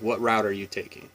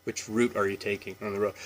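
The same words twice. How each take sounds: First: "route" rhymed with out, softly; route as rowt. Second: "route" said like root, quiet quick question. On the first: Vlogger acting a road trip question, route like out. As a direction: ask it, with "route" like out. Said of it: "we say both route and route". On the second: Vlogger acting a road question, route like root. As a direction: say "route" to rhyme with boot. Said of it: "We say route for". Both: Shown as a demonstration.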